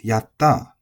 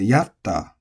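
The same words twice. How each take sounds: First: The pitch emphasis falls at the end. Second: The pitch emphasis falls near the start. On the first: The speaker calls it right. "The energy... is going to be on the end" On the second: The speaker calls it wrong. "you might be mispronouncing it"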